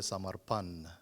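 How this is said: The final N is said the Northern Indian way. This is how people in the North say it. "whereas those in the North say"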